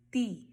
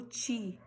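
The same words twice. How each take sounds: First: TI with a clean T, no "ch"; hard T. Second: TI said as "chi", the Brazilian way; softened T. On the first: Teacher showing the correct sound, hard "ti". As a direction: tap ti crisply off the teeth. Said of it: "eu falo". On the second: Teacher showing what not to say, "tchi" for ti. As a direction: turn the T of ti into "tch". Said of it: "eu não falo". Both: Shown as a demonstration.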